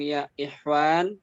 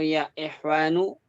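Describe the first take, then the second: First: The last word ends on the n sound. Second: The last word ends with a final u vowel.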